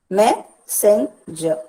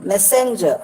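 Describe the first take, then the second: First: "Messenger" slowly split as me, sen, jer, me stressed; syllable by syllable. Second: Said in the usual way. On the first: Shown as a demonstration. Teacher dividing a word for students, "Messenger" in slow separate syllables. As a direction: break "Messenger" into three slow separate beats. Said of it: "me is stressed and sen and jer are not". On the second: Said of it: "look at the word messenger".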